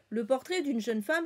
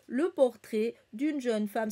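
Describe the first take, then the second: First: It is read smoothly but flatly, like a schoolchild. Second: It is read choppily, like a robot. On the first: "c'était vraiment lu comme ça, un peu scolaire" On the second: "C'était pas genre"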